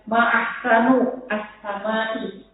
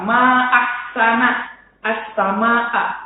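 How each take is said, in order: First: The final word ends with an 'i' vowel. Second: The final word ends with an open 'a' vowel. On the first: It asks what is most beautiful in the sky. The speaker calls it wrong. "anak perempuannya tadi mengucap" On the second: It expresses admiration of the sky's beauty. The speaker calls it right.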